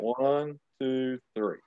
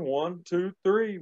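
First: The count is said slowly. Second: The count is said fast.

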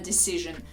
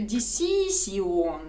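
First: The ending is said with a 'zh' sound. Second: The ending is said as separate 'si-on' sounds. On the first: The speaker calls it right. "а не decision" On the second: The speaker calls it wrong. "то навряд чи зрозуміють"

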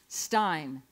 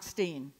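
First: The vowel sounds like 'eye'. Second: The vowel sounds like 'ee'. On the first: The speaker calls it right. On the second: The speaker calls it wrong. "not Steen"

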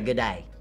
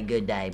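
First: The words are squeezed into one short syllable. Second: Both words are said fully and separately. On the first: This is how Australians say it. "But y'all say good day" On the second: This is how Americans would say it. "but we would say good day"

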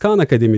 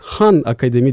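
First: The name begins with a hard k sound. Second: The name begins with a breathy h sound. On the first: This is how the organization itself says it. "biz Khan Akademi diyoruz" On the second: This is how Arabic-speaking elders say it. "Arapça bilen büyüklerimiz Han Akademi diye de telaffuz ediyorlar"

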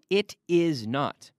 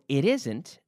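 First: The verb and not are said in full. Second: The verb and not are contracted together. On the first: "No estoy diciendo" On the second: "Fíjate cuando digo no, it isn't"

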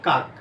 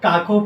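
First: The word ends on the final k consonant. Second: The word ends with an added o vowel. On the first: The speaker calls it right. "আমরা করি কি? কাক।" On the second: The speaker calls it wrong. "আমরা কেউ কিন্তু কাকও পড়ি না।"

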